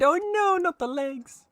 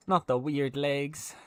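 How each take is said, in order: First: High squeak of mock dismay; mock horror. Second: Said in the usual way. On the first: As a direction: gasp it out in playful horror.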